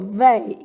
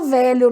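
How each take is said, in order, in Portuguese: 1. A palavra é dita numa forma abreviada, de gíria. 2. A palavra é dita na sua forma completa, com duas sílabas. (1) "Ela fala isso aqui, ó" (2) "A pessoa nem fala velho, não"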